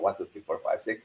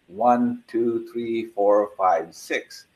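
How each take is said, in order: First: The counting is at a very fast pace. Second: The counting is at a slow, even pace.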